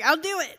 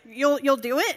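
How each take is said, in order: First: I'LL DO IT as a falling statement; firm reply. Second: Stammered, louder disbelief, rising on IT; surprised question. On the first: Young preacher accepting the pastor's request, firm falling answer. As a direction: answer I'LL DO IT decisively, no question in it. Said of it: "And I was like". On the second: Pastor hearing an unexpected yes, stammering surprised question. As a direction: imitate a pastor stumbling over his surprise. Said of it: "He was just as surprised as I was". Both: Retold or imitated.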